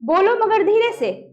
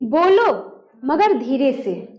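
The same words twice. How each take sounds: First: It is said without a pause before मगर. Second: It is said with a pause before मगर. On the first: The speaker calls it wrong. "ऐसे पढ़ेंगे तो यानी हम गलत पढ़ रहे हैं" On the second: The speaker calls it right. "बोलेंगे कैसे?"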